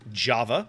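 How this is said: The name is said with an English pronunciation. "Most of us in the West will probably simply pronounce it"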